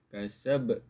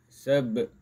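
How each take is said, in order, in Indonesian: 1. Huruf b terakhir dilepas dengan memantul. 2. Huruf b terakhir dilepas dengan memantul.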